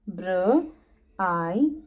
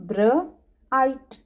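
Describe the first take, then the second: First: ब्र-आइट slowly split, br then aite; ब्र-आइट broken apart slowly; split into sounds. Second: ब्राइट said whole, br blended; ब्राइट in one smooth syllable; bright. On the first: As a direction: stretch ब्र-आइट into its two parts. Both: Shown as a demonstration. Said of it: "B R make br sound".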